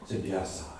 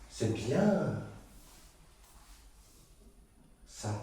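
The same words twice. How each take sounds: First: The word bien is said plainly, not stretched. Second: The word bien is stressed and drawn out. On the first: The speaker calls it wrong. "je n'ai pas prononcé comme il fallait" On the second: The speaker calls it right. "Avec cet accent mis sur le bien, cet étirement"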